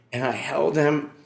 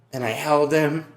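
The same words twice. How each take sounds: The two takes are said the same way.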